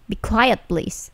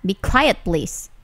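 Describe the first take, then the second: No difference in how they are said.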